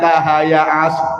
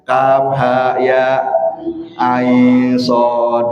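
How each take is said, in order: First: The letters are run together like one word. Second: Each letter is said separately by its full name. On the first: The speaker calls it wrong. "bukannya Kahaya As, bukan begitu" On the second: The speaker calls it right. "dibaca dia nama hurufnya"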